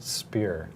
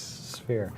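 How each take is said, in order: First: The word starts with a plain p sound. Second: The word starts with an f sound. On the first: The speaker calls it wrong. "I always thought it was pronounced spear" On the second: The speaker calls it right. "No, it's sphere"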